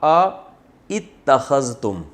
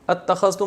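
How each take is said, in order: First: A separate 'a' comes before a pronounced 'itta'. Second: The first vowels merge into one 'atta' sound. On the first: This is the word's original underlying form. "असल में था आ इत्तखज़तुम" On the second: This is how the word is actually read. "पढ़ा जाता है अत्तखज़तुम"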